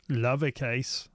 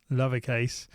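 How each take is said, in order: Both takes have the same delivery.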